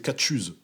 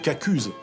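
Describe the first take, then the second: First: The middle consonant is a tch sound. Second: The middle consonant is a hard k sound. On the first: This is the western regional form. "Si on est dans l'ouest, c'est catchuse. Tchu, tchu, tchu, comme euh, un chien" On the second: This is the northern regional form. "si on est dans, dans le nord du département de la Somme"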